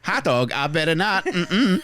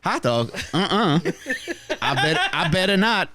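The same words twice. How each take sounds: First: High, halting robot voice; stuck glitchy robot loop; glitching robot. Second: High stuttering robot voice; malfunctioning robot voice; glitching robot. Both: Pretend. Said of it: "You just sound like a malfunctioning sex robot".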